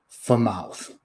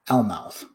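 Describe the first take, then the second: First: The L is silent; the F is sounded. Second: The F is silent; the L is sounded. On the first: "The L's probably silent" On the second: "Let's pretend the L isn't silent, but the F is silent"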